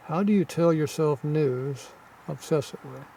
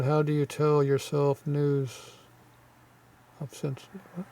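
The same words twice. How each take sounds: First: Said in the usual way. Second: Slow halting read. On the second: Real, not acted. Vlogger puzzling out a translated comment, slow halting read. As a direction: stumble through the comment slowly.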